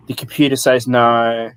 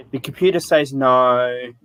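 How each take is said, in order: First: Deadpan bored clerk; flat, bored office voice; dry monotone. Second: Deadpan bored clerk; dry monotone. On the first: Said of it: "like, in a dry monotone voice". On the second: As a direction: say it flat, like an uninterested clerk. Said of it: "in a dry monotone voice". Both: Retold or imitated.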